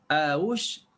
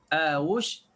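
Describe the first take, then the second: No difference in how they are said.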